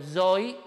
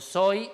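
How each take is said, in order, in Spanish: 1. La primera consonante es una z sonora, con zumbido. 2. La primera consonante es una s sorda, silbante. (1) "yo nunca digo soy" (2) "digo soy"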